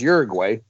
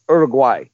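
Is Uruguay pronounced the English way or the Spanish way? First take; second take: English; Spanish. First: The word is said with an English pronunciation. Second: The word is said with a Spanish pronunciation. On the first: "But everybody says Uruguay" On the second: "in Spanish, it's pronounced Uruguay"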